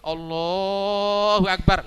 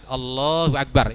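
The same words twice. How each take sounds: First: The vowel in Allah is held far too long. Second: The vowel in Allah is held about two beats. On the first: The speaker calls it wrong. "Tapi kalau Allahu Akbar lain lagi itu" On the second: The speaker calls it right. "itu sudah bagus normal"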